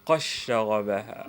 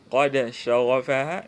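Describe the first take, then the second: First: The d merges into the following sh. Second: The d is pronounced separately before sh.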